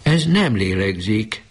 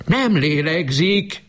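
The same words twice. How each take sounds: First: High, slow, trembling words of disbelief; mother realising her child isn't breathing. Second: Very high, slow, despairing cry; mother crying out that her child isn't breathing. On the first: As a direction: say it as if you can't believe it. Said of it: "csodálkozó, reszkető hangon". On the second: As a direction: wail it out in panic. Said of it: "kiáltott most hangosan". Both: A narrator's reading.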